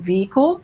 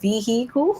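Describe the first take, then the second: First: It is said in a standard accent. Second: It is said in a Southern Alabama accent.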